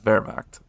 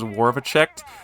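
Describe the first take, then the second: First: It is said with two syllables, no extra sounds. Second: It is said with three syllables and extra sounds. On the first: The speaker calls it right. "It's Wehrmacht" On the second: The speaker calls it wrong. "I think it was Warvachekt. That's not right"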